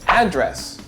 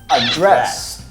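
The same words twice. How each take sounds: First: The stress is on the first syllable. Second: The stress is on the second syllable. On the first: It is the noun for where mail is sent. "Address, noun" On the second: It is the verb meaning to speak to someone. "Address, verb"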